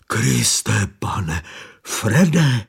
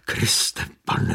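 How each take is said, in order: First: Said in the usual way. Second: Breathless whispered stammer; the driver, stunned by the body, stammering; stammered in shock. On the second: A narrator's reading. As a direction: barely get the words out, stunned.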